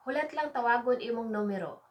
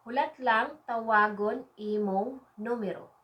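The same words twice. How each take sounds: First: Brisk, joined-up phrase; quick natural take. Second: Word by word for learners; measured phrase model. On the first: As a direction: run the words together at everyday speed. Same phrase repeated at natural speed. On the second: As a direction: space out each word carefully. Teacher models phrase, then repeats faster. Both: Shown as a demonstration.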